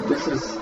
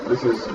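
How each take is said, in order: Both takes have the same delivery.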